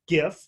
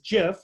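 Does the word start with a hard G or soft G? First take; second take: hard G; soft G. First: It begins with a hard G sound. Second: It begins with a soft G sound. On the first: "hard G pronunciation" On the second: "Soft G pronunciation"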